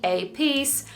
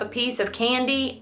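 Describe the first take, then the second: First: "piece" set apart and pitched higher; single out "piece" as its own phrase; stress on piece. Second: Said in the usual way. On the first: Shown as a demonstration. Crafter clarifies it was one candy, stress on "piece".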